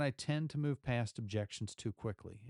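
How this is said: The voice sounds calm and neutral. The listener stays open to follow-up questions. The speaker calls it right. "That was very neutral"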